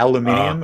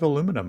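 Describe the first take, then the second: First: It is said as five syllables, alu-min-i-um. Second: It is said as four syllables, alu-mi-num.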